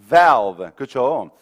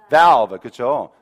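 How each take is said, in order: The two takes are said the same way.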